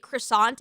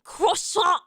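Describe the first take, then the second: First: Croissant said the anglicized way; croissant without any French accent; English croissant. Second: Croissant in an exaggerated French accent; hammed-up mock French, higher pitched; heavy French accent. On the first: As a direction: say croissant as in everyday English, final T. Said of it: "pronounce it croissant if I'm speaking, like, English". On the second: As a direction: overdo the French accent for fun. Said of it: "most offensive French accent for fun". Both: Shown as a demonstration.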